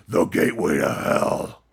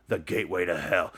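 First: Low, slow whispered doom voice; ominous demon whisper. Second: Said in the usual way. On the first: Shown as a demonstration. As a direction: breathe it out like a voice from hell, low and slow.

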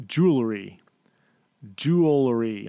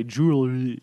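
First: JEWELRY slowly and carefully, syllable by syllable; "jewelry" drawn out slowly to get it right; saying it really slowly. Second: "jewelry" slurred into mush, syllables run together; mushy pronunciation. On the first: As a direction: sound out "jewelry" with deliberate care. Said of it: "I have to say it really slowly". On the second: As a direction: let the middle of "jewelry" collapse. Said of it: "my mouth just turns to mush". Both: Shown as a demonstration.

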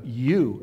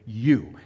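First: Said in the usual way. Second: "you" punched a bit louder; emphatic you. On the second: Shown as a demonstration. Preacher showing the emphatic "you" in Jesus's question, stressed. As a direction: lean hard on "you". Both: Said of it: "it's emphatic".

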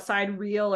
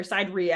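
First: Sidereal said as "side-reel"; alternative pronunciation. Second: Sidereal said as "side-ree-al"; alternative pronunciation. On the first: Unsure how the term is pronounced, sidereal as "side-reel". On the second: Offering another way to say it, sidereal as "side-ree-al". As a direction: end sidereal in two syllables, "ree-al". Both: Shown as a demonstration. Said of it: "how you're supposed to pronounce it".

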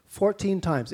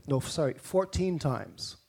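First: Fourteen stressed, a touch higher and firmer; corrected stress. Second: Said in the usual way. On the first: Shown as a demonstration. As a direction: lean on the word Fourteen to correct yourself.

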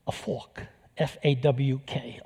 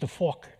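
First: Fork said as New York fawk, no r and an open aw; a thick New York fawk; New York accent. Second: Said in the usual way. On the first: Shown as a demonstration. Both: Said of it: "this whole New York accent comes out".

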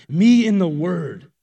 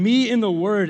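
First: "Me in the Word" slow, loud, each word weighted; emphasized. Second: Said in the usual way. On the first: Shown as a demonstration. Stressing to the audience that she read the Bible alone, slow and loud. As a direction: lean hard on "Me" and slow down through "Me in the Word". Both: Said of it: "I wanna emphasize that".

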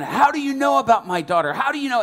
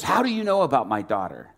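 First: Loud, high indignant shouting; getting angrier. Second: Mildly indignant retold question; angry father. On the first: Retold or imitated. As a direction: imitate an enraged father demanding an answer. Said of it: "And he's getting more angry". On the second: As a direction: act a father startled into a touch of anger. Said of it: "he's getting more angry".

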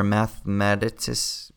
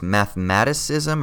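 First: "mathematicis-" broken off, stress moved later; "mathematicis-" offered as an unsure alternative, cut short; alternative pronunciation. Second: "mathematicism" stressed on MAT; "mathematicism" offered tentatively as math-MAT-i-cism; trying a pronunciation. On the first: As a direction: try "mathematicis-" as math-ma-TIS, unfinished. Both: Shown as a demonstration. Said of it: "I can't remember how you say".

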